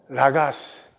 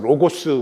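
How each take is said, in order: First: The vowels are pronounced as a sounds. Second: The vowels are pronounced as o sounds.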